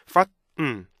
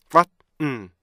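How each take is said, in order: Both takes have the same delivery.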